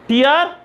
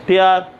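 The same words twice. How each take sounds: First: टीआर said as "teer", higher, with a rising tune; tear as teer. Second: टेआर said as "tare", lower and firm; tear as tare. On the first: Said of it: "टीआर का मतलब है आंसू". (टीआर, ऊँचे और उठते सुर में) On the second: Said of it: "टेआर का मतलब है पाड़ना". (टेआर, नीचे सुर में ज़ोर से) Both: Shown as a demonstration.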